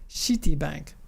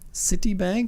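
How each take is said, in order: First: The word begins with a sh sound. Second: The word begins with a plain s sound.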